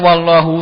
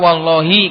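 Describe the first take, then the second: First: The word ends with an 'u' vowel. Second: The word ends with an 'i' vowel. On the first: The speaker calls it wrong. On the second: The speaker calls it right. "harus dibaca wallahi karena wawu di situ adalah huruf jar"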